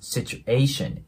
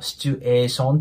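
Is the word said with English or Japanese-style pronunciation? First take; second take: English; Japanese. First: English style with a short A vowel sound. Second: Japanese katakana style with a long drawn vowel. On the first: The speaker calls it right. "A の音でね、発音してもらえたらと思います" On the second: The speaker calls it wrong. "シチュエーションっていう感じで伸ばすんじゃなくて"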